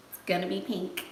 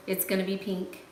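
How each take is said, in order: Both takes have the same delivery.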